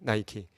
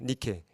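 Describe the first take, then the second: First: The name is pronounced nai-kee. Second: The name is pronounced nee-keh. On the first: It is the English form of the name. "영어 발음으로 하면 뭐죠? 이게 나이키가 되는 겁니다" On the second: It is the original Greek form of the name. "헬라어식으로 발음을 하면 이제 명사가 되면 니케가 됩니다"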